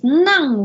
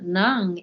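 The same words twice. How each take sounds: First: The word is said on a high tone. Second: The word is said on a low tone. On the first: It means to give, honorific. "which is a high tone" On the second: It means inside. "if you pronounce it low tone"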